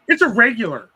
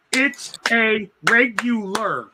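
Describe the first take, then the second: First: Dismissive retort. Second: Mocking slow drawl. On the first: Retold or imitated. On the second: Coworker repeating her claim, mocked slowly and stubbornly. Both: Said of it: "that "it's a regular" bullshit".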